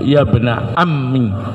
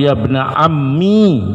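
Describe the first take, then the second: First: The word ends in a short i vowel. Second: The word ends in a long i vowel. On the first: "ya-nya dibuang, mimnya dikasrah" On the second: "ya'nya dipakai dan sukun"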